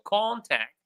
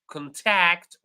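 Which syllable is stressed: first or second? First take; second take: first; second. First: The stress is on the first syllable. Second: The stress is on the second syllable. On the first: It is used as a noun. "when it is a noun, we stress the first syllable" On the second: It is used as a verb. "when it is a verb, we stress the second syllable"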